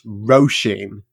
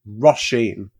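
First: The first syllable sounds like the word 'row'. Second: The first syllable has a short 'o' sound. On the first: The speaker calls it right. "Like row as in row" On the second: The speaker calls it wrong. "sort of like it's like a lowercase sounding O"

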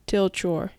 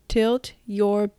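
First: The two words run together in one smooth link. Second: The two words are said slowly and apart. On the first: "つなげて発音されます" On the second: "ゆっくりはっきり発音する"

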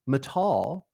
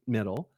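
First: The first vowel is drawn out and Southern. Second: The first vowel is short and plain. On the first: The speaker calls it wrong. "I want to super Scott Irish Southern up any A in a word" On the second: The speaker calls it right.

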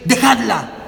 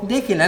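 First: It is said as a firm command. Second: It is said mildly, without authority.

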